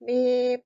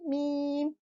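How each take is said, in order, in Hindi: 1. यह नाक बंद करके बोला जाता है। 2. यह आवाज़ नाक से निकलते हुए बोला जाता है। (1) "नाक को बंद करके मीम प्रोनाउंस करने की कोशिश करेंगे ... ठीक से प्रोनाउंस नहीं हो रहा" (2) "नाक खोल कर करूंगी मीम"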